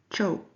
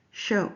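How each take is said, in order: First: "cho" with ch in place of sh; Spanish-accented sh. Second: Said in the usual way. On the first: Shown as a demonstration. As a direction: say "cho", a hard ch opening for show. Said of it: "Mister Alvarez says". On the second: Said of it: "instead of show".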